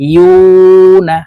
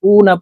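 First: The first syllable starts with a y-sound. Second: The first syllable starts with a glottal stop. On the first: The speaker calls it right. "জিব্বার মধ্যখান থেকে মাখরাজ অনুযায়ী পড়তে হবে।" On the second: The speaker calls it wrong. "ইয়ার উচ্চারণ আমরা হামজার উচ্চারণ করে থাকি, উ না পড়ে থাকি। এভাবে পড়লে ইয়ার উচ্চারণ সঠিকভাবে হবে না।"

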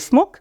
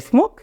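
The two takes are said the same way.

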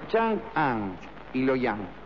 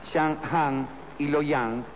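First: The city names are pronounced carefully. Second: The city names are pronounced carelessly. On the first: The speaker calls it right. "Es Chang'an y Luoyang" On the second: The speaker calls it wrong. "lo pronuncié mal"

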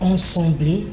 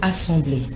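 First: The first vowel is a nasal 'en'. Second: The first vowel is an oral 'a'. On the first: The speaker calls it wrong. "parfois mal prononcé par certaines personnes qui disent « ensembler »" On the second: The speaker calls it right. "Le mot du jour, c'est le mot « assembler »"

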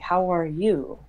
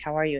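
First: The word 'you' is strongly stressed. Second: It is a casual greeting without stress on 'you'.

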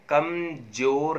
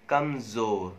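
First: The middle consonant is a j sound. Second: The middle consonant is a z sound. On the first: The speaker calls it wrong. "बड़ा कमजोर नहीं होगा" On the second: The speaker calls it right. "ज ज, got it?"

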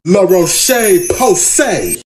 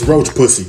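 First: The name is said with French sounds. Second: The name is garbled into two slangy English words. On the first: The speaker calls it right. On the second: The speaker calls it wrong.

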